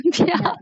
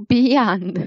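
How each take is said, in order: First: "beyond" pitched higher with the weight on "yond"; stress on second syllable. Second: "beyond" with the first syllable "be" stressed; wrong stress. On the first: Tutor giving the correct stress on beyond, second syllable up. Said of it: "重音在第二个音节上面". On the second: Tutor imitating the student's wrong stress on beyond. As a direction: mimic the student's error, hit "be" in "beyond". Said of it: "它不是读". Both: Shown as a demonstration.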